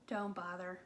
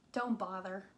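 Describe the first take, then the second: No difference in how they are said.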